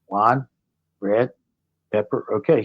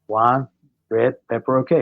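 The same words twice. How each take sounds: First: It is said slowly. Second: It is said at a normal speed.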